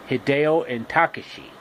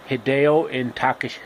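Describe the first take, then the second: No difference in how they are said.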